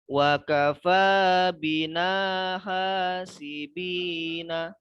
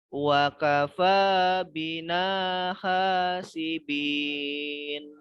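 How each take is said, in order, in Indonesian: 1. Frasa ini berakhir dengan vokal pendek setelah n. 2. Frasa ini berakhir dengan bunyi n mati.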